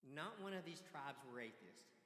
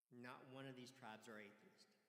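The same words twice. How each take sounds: First: Slow, louder, every word weighted; slow emphatic declaration. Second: Said in the usual way. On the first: Acted. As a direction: drive it home slowly. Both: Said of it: "repeated for emphasis".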